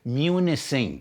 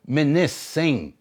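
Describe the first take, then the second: First: The first syllable is said like 'moo'. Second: The first syllable is said like 'mih'. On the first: This is how weather reporters say it. The speaker calls it wrong. "they pronounce it Munising" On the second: This is the original name, meaning island. The speaker calls it right. "It's supposed to be called Minising"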